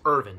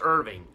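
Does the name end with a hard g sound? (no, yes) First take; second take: no; yes. First: The name ends in n without g. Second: The name ends with a g sound. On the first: The speaker calls it right. "I think it's Irvin" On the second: The speaker calls it wrong. "not Irving"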